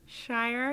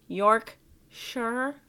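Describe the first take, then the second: First: Shire with a full vowel, rhyming with fire; alternative pronunciation. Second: Yorkshire with a reduced ending, "shur"; questioned pronunciation. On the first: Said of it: "I like Shire". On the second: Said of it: "what's gross is your pronunciation". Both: Real, not acted.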